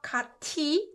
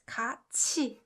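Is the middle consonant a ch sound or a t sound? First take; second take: t sound; ch sound. First: The middle consonant is a plain t sound. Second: The middle consonant is a ch sound. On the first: The speaker calls it wrong. "It's not 같이" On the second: The speaker calls it right. "It's 같이"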